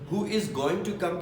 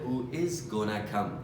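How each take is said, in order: First: Going to is said as two full words. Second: Going to is reduced to one word, gonna. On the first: "Who is going to come की जगह" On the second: "बोल सकते हैं Who is gonna come?"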